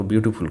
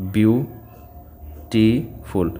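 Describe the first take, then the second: First: Said in the usual way. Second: beautiful drawn out very slowly, syllable by syllable; slow syllable split. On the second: Shown as a demonstration. Teacher showing students the three syllables in beautiful, very slow. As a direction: stretch beautiful so each of its three syllables is heard. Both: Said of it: "तो तीन syllable है".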